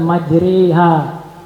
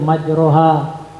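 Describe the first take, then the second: First: The vowel after r is tilted toward i. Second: The vowel after r is an open a sound. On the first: It follows another canonical reading. "Itu menurut lafaz Imam Hafiz" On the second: It follows one canonical reading. "Ini menurut lafaz Imam Ibnu Katsir"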